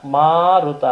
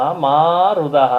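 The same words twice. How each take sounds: First: Said in the usual way. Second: ಮಾರುದಹ spelled out slowly, syllable by syllable; Sanskrit pronunciation. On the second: Shown as a demonstration. Teaching the Sanskrit form to listeners, ಮಾರುದಹ said very slowly. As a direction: drag out ಮಾರುದಹ very slowly to show its parts. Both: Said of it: "ಸಂಸ್ಕೃತದಲ್ಲಿ ಅಳಬೇಡ ಅನ್ನೋದನ್ನ".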